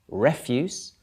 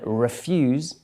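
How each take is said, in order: First: The stress is on the first syllable. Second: The stress is on the second syllable. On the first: It is a noun meaning rubbish. "Refuse is another word for rubbish" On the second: It is a verb meaning to deny something. "refuse is you deny someone something"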